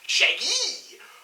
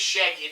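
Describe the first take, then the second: First: The voice goes up high on the name. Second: The name is said with a plain, level pitch. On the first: "he has to go up with his voice every time he says Shaggy" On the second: "it's not just Shaggy"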